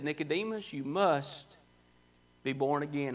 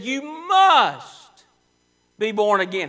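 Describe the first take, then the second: First: Soft, low, intimate command; preacher voices Jesus gently telling Nicodemus; quiet and earnest. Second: Loud, ringing command on must; preacher booms Jesus' command as forcefully as he could. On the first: Quiet earnest command. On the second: Loud forceful command. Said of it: "He said it as forcefully as he could". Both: Retold or imitated.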